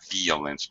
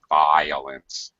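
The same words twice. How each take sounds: First: The first vowel is not a long I. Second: The first vowel is a long I sound. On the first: The speaker calls it wrong. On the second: The speaker calls it right. "violence has an I sound, a long I"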